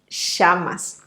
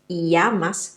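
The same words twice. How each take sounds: First: The double L sounds like a strong sh. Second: The double L sounds like a y glide. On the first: "it's more like a strong sh" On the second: "in some countries it sounds more like an E"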